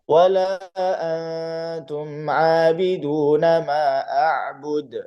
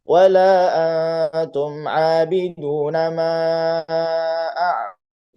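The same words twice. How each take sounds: First: Every long vowel is held briefly, two counts. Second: Long vowels switch from two counts to four. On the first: The speaker calls it right. "Itu kalau dua harokat semua" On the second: The speaker calls it wrong. "dua harokat kemudian empat harokat"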